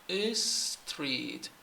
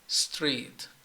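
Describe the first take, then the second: First: A short vowel is added before the s. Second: The word starts directly with a hissing s. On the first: The speaker calls it wrong. "saying is is street, and this is wrong" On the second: The speaker calls it right. "Start from your mouth"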